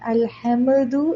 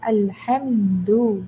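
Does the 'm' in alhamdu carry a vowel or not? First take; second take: vowel; no vowel. First: A vowel is heard after the m. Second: The m closes directly with no vowel. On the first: The speaker calls it wrong. "അൽഹംദു എന്ന് പറയില്ല" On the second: The speaker calls it right. "മീമിന് സുക്കൂനാണ്"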